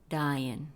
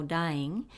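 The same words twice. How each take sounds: First: Dying said as "dyin'", ending on a plain n; dying pronounced "dah-yen", no final g; dropped g. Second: Dying said with the full final "ng" sound; dying pronounced "dai-ing" with the g; full ng ending. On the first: Teacher showing students the song's version, final g dropped. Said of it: "Se pronuncia en la canción como". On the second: Teacher showing students the correct form, ending in ng. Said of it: "La palabra correcta se pronuncia como dying". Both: Shown as a demonstration.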